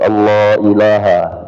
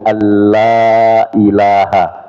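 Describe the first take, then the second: First: The L is heavy, like in Allah. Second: The L is light and thin. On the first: The speaker calls it wrong. "Padahal di situ bukan Allah itu" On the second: The speaker calls it right. "bukan Allah ilah gitu"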